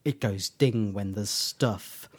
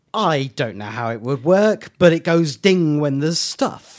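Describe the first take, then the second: First: Slow, understated quoted line; slow, subdued mock explanation; Doctor fumbling an explanation. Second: Emphatic, louder imitation of a baffled writer; writer giving up. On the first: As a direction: spell it out slowly and low-key. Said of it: "Doctor can't explain how it works line". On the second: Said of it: "Stephen Moffat, the writer, going".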